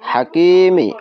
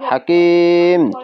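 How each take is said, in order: First: The word ends with a short i vowel. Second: The word ends on the consonant m. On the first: The reading continues without a stop. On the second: The reader stops at this word.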